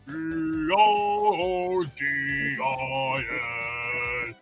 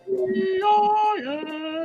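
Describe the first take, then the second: First: It is said in a lower tenor voice. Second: It is said in a mid alto voice.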